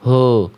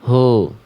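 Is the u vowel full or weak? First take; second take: weak; weak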